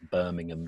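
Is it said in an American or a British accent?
British. It is said in a posh British accent.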